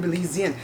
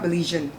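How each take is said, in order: First: "Belizean" with a z, bih-LEE-zee-un; four-syllable "Belizean"; correcting Belizean. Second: "Belizean" with zh, bih-LEE-zhun; three-syllable "Belizean"; mispronounced Belizean. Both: Retold or imitated. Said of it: "Jada corrects them".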